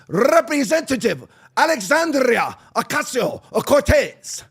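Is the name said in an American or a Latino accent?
Latino. The name is said in an exaggerated Latino accent.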